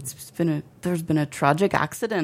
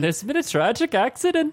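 First: Understated attempt at Irish; lightly faked Irish accent in usual pitch. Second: High-pitched fake Irish veering off course; botched Irish accent. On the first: Telling the world of the death, mild Irish accent. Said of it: "Do it in an Irish accent". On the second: Echoing the co-host, botched high Irish accent. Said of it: "That veered into, like, a different type of nationality". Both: Shown as a demonstration.

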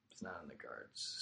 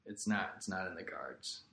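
First: Very soft, low, almost whispered; resigned murmur. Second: Said in the usual way. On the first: Real, not acted. Athlete admitting a comeback is unlikely, resigned murmur. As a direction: let it sink to a near whisper. Resigned repeat of same line.

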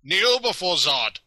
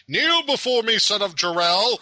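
First: High, loud commanding Zod voice; booming arrogant alien overlord. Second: High, loud Zod impression; booming arrogant alien overlord. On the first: Retold or imitated. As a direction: order them to kneel. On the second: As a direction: boom it out like a tyrant demanding worship. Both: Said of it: "They gotta throw in the line".

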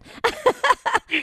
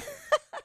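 First: A sudden high giggle at herself; high burst of laughter. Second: A quick high laugh; high giggle. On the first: Laughing at her own tongue-twister with the host. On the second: Guest laughing with the host after her joke. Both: Real, not acted.

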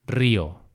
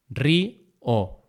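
First: Said in the usual way. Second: "Río" split as rí, o; syllable by syllable. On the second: Shown as a demonstration. Teacher showing the hiato in a word, syllable by syllable. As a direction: pause between the two vowels of "Río". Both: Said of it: "esa separación de sílabas".

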